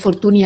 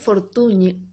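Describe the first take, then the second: First: The name ends in a plain 'ee' vowel. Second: The name ends in a palatal 'ny' sound. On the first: The speaker calls it wrong. "yo decía Fortuny al principio" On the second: The speaker calls it right. "se pronuncia como la ñ esta final catalana"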